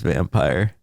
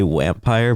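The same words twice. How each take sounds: First: The word begins with a V sound. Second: The word begins with a W sound. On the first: This is how their lisp makes it come out. "but it just comes out as vampire" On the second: This is the word they intend to say. "they're trying to say vampire"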